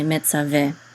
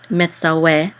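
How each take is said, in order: First: The middle consonant is a v sound. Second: The middle consonant is a w sound. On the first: This is the modern pronunciation. "but nowadays we would say metzaveh" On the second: This is the ancient pronunciation. "anciently, the vav was pronounced as a w. So anciently, this this word would be pronounced metzaweh"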